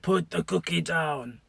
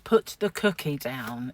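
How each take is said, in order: First: It is said in a gravelly put-on voice. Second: It is said in a plain normal voice.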